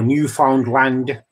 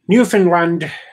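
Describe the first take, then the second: First: It is said more phonetically, closer to spelling. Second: It is said in the common, less literal way.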